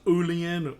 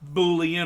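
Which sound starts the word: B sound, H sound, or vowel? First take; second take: vowel; B sound. First: The word begins directly with a vowel. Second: The word begins with a B sound.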